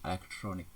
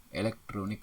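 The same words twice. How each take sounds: First: "elektronik" with altered vowel and cluster; "elektronik" said like "alektronik"; nonstandard pronunciation. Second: "elektronik" with clear E and K; careful e-lek-tro-nik for "elektronik"; standard pronunciation. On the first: Teacher shows wrong form, altered "elektronik". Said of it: "tidak baku". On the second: Teacher models standard word, careful "elektronik". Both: Shown as a demonstration.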